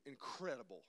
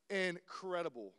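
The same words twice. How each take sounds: First: Said in the usual way. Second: "incredible" drawn out slowly; emphatic stretch. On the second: Real, not acted. Preacher praising his brother's ballet dancing, "incredible" slowly stretched for emphasis.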